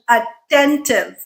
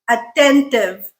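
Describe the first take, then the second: The two takes are said the same way.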